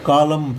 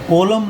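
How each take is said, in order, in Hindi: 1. पहला स्वर 'ah' जैसा सुनाई देता है। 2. पहला स्वर 'oh' जैसा सुनाई देता है। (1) "कालम पढ़ेंगे" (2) "यहां पर कोलम नहीं पढ़ेंगे हम"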